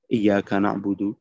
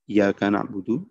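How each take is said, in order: First: The y sound in iyyaka is single. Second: The y sound in iyyaka is single.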